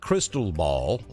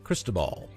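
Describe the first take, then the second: First: The name sounds like the phrase 'crystal ball'. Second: The name does not sound like 'crystal ball'. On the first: The speaker calls it wrong. "Not crystal ball" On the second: The speaker calls it right. "we call it Cristobal"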